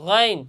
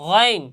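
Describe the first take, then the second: Both takes have the same delivery.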